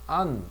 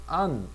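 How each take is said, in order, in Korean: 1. 모음은 열린 'ah' 소리예요. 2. 모음은 열린 'ah' 소리예요.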